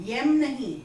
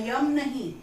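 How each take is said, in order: The two takes are said the same way.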